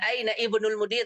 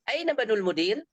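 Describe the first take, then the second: First: The 'i' vowel before 'bnul' is pronounced. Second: The 'i' vowel before 'bnul' is dropped. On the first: The speaker calls it wrong. "Bukan aina ibnul mudir" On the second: The speaker calls it right. "tapi aina banul mudir"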